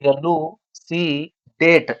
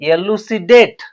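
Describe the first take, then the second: First: Each syllable is said separately with breaks. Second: The syllables are joined into one smooth word. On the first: "ಮೊದಲ ಬಿಡಿಸಿ ಹೇಳ್ಬೇಕು, ಎಲು ಸಿ date ಹಿಂಗ್ ಓದ್ಬೇಕು ಮೊದಲ" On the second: "ಆಮೇಲೆ ಎಲು ಸಿ date ಅಂತ ಹೇಳ್ಬಿಡ್ಬೇಕು"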